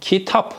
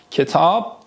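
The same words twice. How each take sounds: First: "کتاب" as kitap, with i and final p; Turkish pronunciation. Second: "کتاب" as ketâb, with e and final b; Persian pronunciation. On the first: Teacher modelling the Turkish word for students, "کتاب" as kitap. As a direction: say "کتاب" as KEE-tap. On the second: Teacher giving students the Persian word, "کتاب" as ketâb. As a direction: say "کتاب" as ke-TAAB. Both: Shown as a demonstration. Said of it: "در ادامه کتاب".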